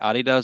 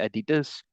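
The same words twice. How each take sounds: First: It is pronounced in a non-American way. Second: It is pronounced the American way. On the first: This is how he used to say it. "you don't say Adidas anymore" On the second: He has picked up the American pronunciation. "you say Adidas"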